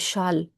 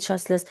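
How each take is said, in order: First: The S sounds in the name are silent. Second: The S sounds in the name are pronounced. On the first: "En français, on dit la règle du châle. On ne prononce pas les S" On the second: "En anglais, on dit chasseless"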